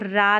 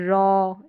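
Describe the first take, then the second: First: The vowel is an open 'ah' sound. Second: The vowel is a rounded 'aw' sound. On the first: The speaker calls it wrong. "इसको रा नहीं पढ़ेंगे" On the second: The speaker calls it right. "A W को हम अ pronounce कर रहे हैं"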